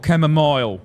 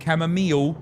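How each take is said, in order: First: The last syllable sounds like 'mile'. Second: The last syllable sounds like 'meal'.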